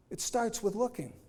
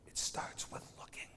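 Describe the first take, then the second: First: Said in the usual way. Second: Whispered. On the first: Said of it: "same line repeated plainly". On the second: Shown as a demonstration. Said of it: "repeated as a whispered echo".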